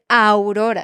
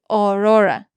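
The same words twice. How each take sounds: First: The first vowel is an 'ow' glide sound. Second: The first vowel is a plain 'o' sound. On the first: The speaker calls it right. "En vez de Aurora" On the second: The speaker calls it wrong. "muchos estudiantes tenderían a decir Aurora"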